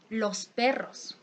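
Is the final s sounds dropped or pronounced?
pronounced. The final s sounds are clearly pronounced. "a person of Sierra region say"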